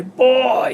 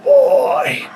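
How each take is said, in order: First: High sharp call. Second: Very high, airy gasping call. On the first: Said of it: "And then I heard him say". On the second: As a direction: gasp the word out on the breath. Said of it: "he had a, a airy voice". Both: Retold or imitated.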